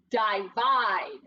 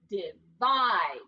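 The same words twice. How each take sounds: First: "divide" with a long i first, as dye-VIDE. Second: "divide" with short i first, as dih-VIDE. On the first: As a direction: say "divide" starting like "die", both syllables full. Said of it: "do you think we need a macron". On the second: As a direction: say "divide" in two parts, stressing the second. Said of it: "he's making his short sound". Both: Shown as a demonstration.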